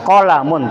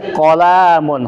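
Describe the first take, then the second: First: The middle vowel is kept short. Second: The middle vowel is drawn out long. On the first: The speaker calls it right. "Qalamun pendek" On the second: The speaker calls it wrong. "laisa qalamun khoto"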